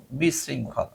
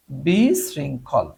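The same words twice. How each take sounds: First: Said in the usual way. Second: বিশৃঙ্খল drawn out slowly, syllable by syllable; slow dictation. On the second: Shown as a demonstration. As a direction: spell out বিশৃঙ্খল slowly for the class. (ধীরে ধীরে টেনে বলা) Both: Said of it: "chaotic মানে হচ্ছে বিশৃঙ্খল".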